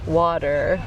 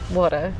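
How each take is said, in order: First: It is said with an American accent, t like d. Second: It is said with an Australian accent.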